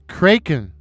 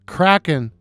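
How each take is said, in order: First: The first vowel sounds like in 'shake'. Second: The first vowel sounds like in 'snack'. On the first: The speaker calls it wrong. "I thought the name of the cryptid was pronounced Kraken" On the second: The speaker calls it right. "I realized I had mispronounced the name"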